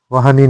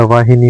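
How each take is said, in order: First: वाहनी without i after h; wrong vowel. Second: वाहिनी with i after h; correct vowel. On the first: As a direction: say वाहनी as "vaahani". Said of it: "नहीं होता". (वाहनी में इ नहीं) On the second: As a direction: say वाहिनी as "vaahini". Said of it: "होता है". (वाहिनी में हि) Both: Shown as a demonstration.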